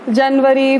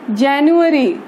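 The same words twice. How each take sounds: First: जनवरी as "jan-va-ree", short first vowel; Hindi pronunciation. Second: जनवरी as "jan-yoo-a-ree"; English pronunciation. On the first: Teacher showing how Hindi speakers say the month, Hindi pronunciation. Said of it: "Hindi में pronounce करते हैं". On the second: Teacher showing students the English month name, English pronunciation. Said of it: "English में pronounce करते हैं". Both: Shown as a demonstration.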